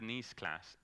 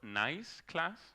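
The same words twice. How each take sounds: First: 'Nice' is said like the French city. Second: 'Nice' is said like the English adjective. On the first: It is named after a city. The speaker calls it right. "it's called like that because of the city" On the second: It means pleasant. The speaker calls it wrong. "It's not nice class"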